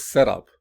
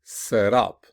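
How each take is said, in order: First: "setup" with SET punched, UP falling away; stress on first part. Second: "set up" with UP punched; stress on second part. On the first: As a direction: noun form, punch the start of "setup". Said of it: "we can always punch". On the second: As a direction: verb form, lean hard on UP in "set up". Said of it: "And the verb will be". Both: Shown as a demonstration.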